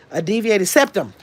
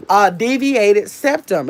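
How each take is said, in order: First: Said in the usual way. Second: DEVIATED SEPTUM drawn out slowly, word by word; slow and deliberate. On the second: Real, not acted. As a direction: spell out "deviated septum" at a slow, measured pace. Repeats the term deliberately for viewers.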